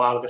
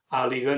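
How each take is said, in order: First: The word is said as two syllables. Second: An extra vowel splits the word into three syllables. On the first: This is the standard form of the word. "no alga" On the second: This is how people there say it. "allí suelen pronunciar áliga"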